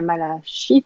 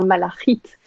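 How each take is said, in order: First: It is said with French pronunciation, every sound voiced. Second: It is said with Hebrew pronunciation. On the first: "on dit la malachite en fait en français, parce qu'on prononce tout" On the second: "mais en hébreu, on va dire malachite"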